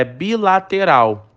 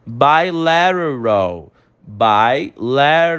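First: Said in the usual way. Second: Bilateral slow, T flapped like R; English pronunciation. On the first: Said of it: "É bilateral". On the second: Shown as a demonstration. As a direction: flap the T in bilateral. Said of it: "ele tem um sentido de R". (bilateral em inglês com o T como R)

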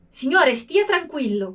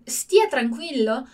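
First: Curt, slightly rude reassurance; a touch of rudeness. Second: Slow, soothing "stia tranquillo"; calm them down gently; reassuring. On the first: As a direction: say it a bit rudely, brushing them off. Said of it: "com um tom mais assim, tá sendo meio grosso". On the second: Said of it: "pra tranquilizar mesmo, acalmar alguém". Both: Shown as a demonstration.

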